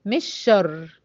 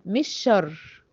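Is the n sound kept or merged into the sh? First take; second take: merged; merged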